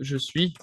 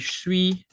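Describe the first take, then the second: First: Both words are said fully and separately. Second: The two words are squeezed into one syllable.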